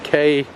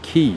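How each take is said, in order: First: The word is said to rhyme with "day". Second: The word is said to rhyme with "see".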